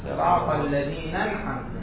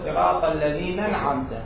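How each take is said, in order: No difference in how they are said.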